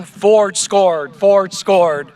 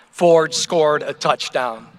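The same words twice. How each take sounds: First: Mild mock yell, a little raised; retold yell. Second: Said in the usual way. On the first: Speaker recalls neighborhood kids celebrating a touchdown, restrained retold yell. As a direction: lightly imitate excited kids yelling.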